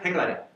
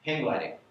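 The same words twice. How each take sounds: First: The phrase is said quickly. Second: The phrase is said at a normal speed.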